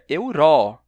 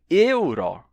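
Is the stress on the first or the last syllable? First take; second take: last; first. First: The stress is on the last syllable. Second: The stress is on the first syllable. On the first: "normalmente ele seria tônico. Seria euro" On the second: "a primeira sílaba é tônica, mas a segunda é aberta"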